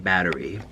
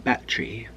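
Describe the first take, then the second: First: It is said in an American accent. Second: It is said in a British accent.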